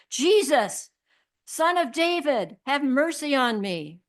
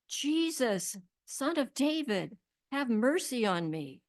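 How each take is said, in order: First: It is said much louder, almost shouted. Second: It is said at a normal volume.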